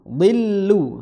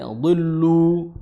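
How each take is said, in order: First: The lam in 'lu' is light and thin. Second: The lam in 'lu' is heavy and thick. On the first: The speaker calls it right. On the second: The speaker calls it wrong.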